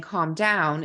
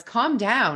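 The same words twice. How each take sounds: First: Said in the usual way. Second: "Calm down" tossed off higher and louder, dismissive; mock dismissive calm down. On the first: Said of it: "instead of him saying". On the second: Husband brushing off his agitated wife, dismissive "Calm down". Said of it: "when my husband said".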